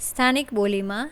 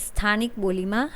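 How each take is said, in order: No difference in how they are said.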